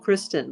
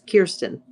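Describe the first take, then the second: First: The r comes right after the k sound. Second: The vowel comes before the r sound. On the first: This is how other people often say it. The speaker calls it wrong. "people often say April Kristen" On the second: This is how the name is really said. The speaker calls it right. "but it's Kirsten"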